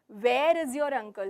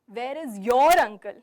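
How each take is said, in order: First: The word 'where' carries the main stress. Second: The word 'your' carries the main stress. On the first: The question asks about the place. "So here I'm asking, where is he? The venue, the place" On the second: The question is about the listener's uncle specifically. "So when I'm stressing on your"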